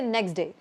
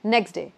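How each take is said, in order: First: The T before day is dropped. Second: The same.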